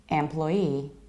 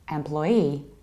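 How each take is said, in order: The two takes are said the same way.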